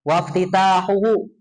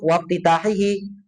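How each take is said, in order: First: The ending is read with a u vowel. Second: The ending is read with an i vowel. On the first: The prefix letter is not the sign of the present-tense verb. "Kalau dibaca rofa" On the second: The prefix letter is the sign of the present-tense verb. "kalau dibaca majrur kasroh"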